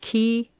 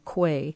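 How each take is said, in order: First: The word sounds like 'key'. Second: The word sounds like 'kway'. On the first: "It can be pronounced key" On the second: "or quay"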